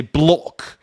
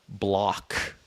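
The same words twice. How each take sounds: First: "block" with a rounded British "aw" vowel; British-style "blawk" for "block"; British accent. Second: Said in the usual way. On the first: Shown as a demonstration. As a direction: say "block" as a Brit might, rounder o. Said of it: "I guess they would say block".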